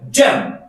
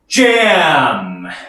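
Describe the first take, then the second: First: The word is cut short. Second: The word is drawn out long. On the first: The speaker calls it wrong. "짧게 잼 이게 아니라" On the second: The speaker calls it right. "리듬을 길게 가져가 주시면 됩니다"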